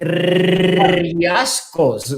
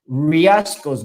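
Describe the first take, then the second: First: The R is rolled with the tongue tip. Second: The R is said like an English R. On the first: The speaker calls it right. "we pronounce it riascos" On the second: The speaker calls it wrong. "we don't pronounce it as in English"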